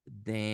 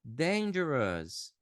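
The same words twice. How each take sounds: First: "Dangerous" broken into DAIN, jer, us; syllable-by-syllable demo. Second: Slow joined-up "Dangerous", stressed on DAIN; DAIN-jer-us as one word; whole-word model pronunciation. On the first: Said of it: "Ó". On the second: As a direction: say "Dangerous" in one falling sweep. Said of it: "vou falar em voz alta aqui esses adjetivos". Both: Shown as a demonstration.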